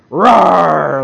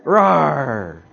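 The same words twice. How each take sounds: First: Full-throated roar, much louder; little bear rearing up and roaring at the panther; big bear roar. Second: A smaller echo of the roar, louder than speech; echoing the little bear's roar for the congregation; softer bear roar. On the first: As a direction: roar like a bear protecting its cub. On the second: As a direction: roar again, held back a little. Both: Shown as a demonstration. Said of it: "like this".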